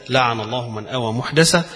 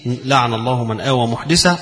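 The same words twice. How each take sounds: First: محدثة read as muhdasa; fatha on the dal. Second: محدثة read as muhdisa; kasra on the dal. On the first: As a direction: end on محدثة with an a after the dal. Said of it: "وبالفتح". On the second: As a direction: end on محدثة with an i after the dal. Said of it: "فمعنى الكسر". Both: Shown as a demonstration.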